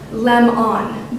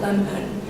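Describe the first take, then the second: First: The second vowel is a full o sound. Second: The second vowel is a reduced uh sound. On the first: "should actually be pronounced lem-on" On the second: "lemon with an uh sound"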